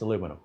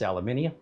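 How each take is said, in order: First: It is said the American way. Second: It is said the British way. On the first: "If you're American, it's aluminum" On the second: "if you're British, it's aluminium"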